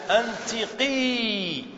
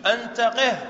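First: قي drawn out slowly on a long ee; long final ee. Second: قه short, closed with an audible h; final breathed h. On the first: Teacher contrasting the feminine command, drawn-out ee on قي. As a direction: stretch the final vowel of قي, no h after it. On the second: Teacher contrasting the masculine command, short i plus h on قه. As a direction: cut the vowel of قه short and end on h. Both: Shown as a demonstration. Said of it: "لاحظوا فرق بينهما".

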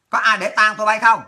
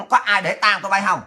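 The two takes are said the same way.

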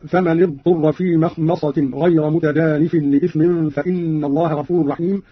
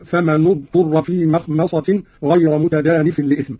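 First: Said in the usual way. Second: "فمن اضطر" linked with u, famanu-dturr; damma on the noon. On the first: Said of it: "قرأ قالون بضم أولى الساكنين وهو النون". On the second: Shown as a demonstration. Teacher demonstrating Qalun's reading, "فمن اضطر" with damma on noon. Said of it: "بضم أولى الساكنين وهو النون هكذا".

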